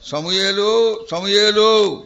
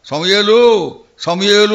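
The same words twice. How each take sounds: First: A gentle, affectionate call of the name; loving call. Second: Louder, weighed-down calling of the name; heavy-hearted call. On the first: God calling the boy Samuel, tender and loving. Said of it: "దాంట్లో దేవుని యొక్క ప్రేమ, ఆప్యాయత". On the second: God calling Samuel with a burdened, louder voice. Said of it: "ఎంతో భారంగా". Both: Acted.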